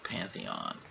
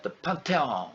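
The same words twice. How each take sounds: First: Said in the usual way. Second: Higher "Pantheon" as pahn-tay-on; imitated French pronunciation. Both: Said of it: "how did she pronounce that?".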